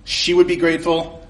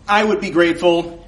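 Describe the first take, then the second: First: "would" leaned on in "she would be grateful"; stress on would. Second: "I" hit hard in "I would be grateful"; stress on I. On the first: Telling the customer off, leaning on "would". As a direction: press down on "would". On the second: Telling the customer off, punching "I". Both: Shown as a demonstration.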